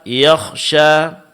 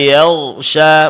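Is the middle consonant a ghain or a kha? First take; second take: kha; ghain. First: The middle consonant is a voiceless kha. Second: The middle consonant is a voiced ghain. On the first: The speaker calls it wrong. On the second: The speaker calls it right.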